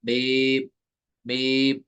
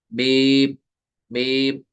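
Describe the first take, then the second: First: मीम said plainly with no nasal hum; the right, non-nasal मीम; clean mim. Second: मीम hummed through the nose; wrongly nasalised मीम; nasal wrong mim. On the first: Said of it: "आपको पढ़ना है". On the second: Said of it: "मीम नहीं पढ़ना है". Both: Shown as a demonstration.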